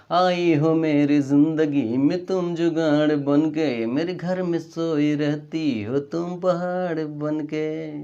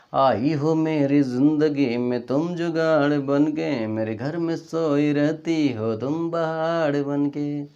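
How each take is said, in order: The two takes are said the same way.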